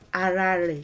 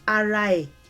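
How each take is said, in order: First: The second word begins with an r sound. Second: The second word begins with a vowel, no r. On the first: This is the older, original form. "re was the original" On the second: This is the newer form used in some dialects. "some have moved on to say e more commonly"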